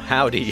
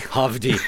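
First: The middle consonant sounds like a w. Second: The middle consonant sounds like a v. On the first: "spelled H-O-V-V-D-Y, because that's how bands do it now" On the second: "I feel like I am contractually obligated to pronounce this band's name Hovdy"

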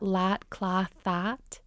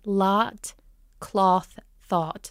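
First: All three words share one bright, flat vowel. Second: Cloth and thought have a darker, farther-back vowel. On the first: "In a Minnesotan accent, they're all going to be the same sound" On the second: "in standard American, those three words would be lot, cloth, thought"

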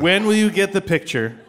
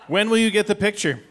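First: It is read with more expression and life. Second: It is read flat, in a monotone.

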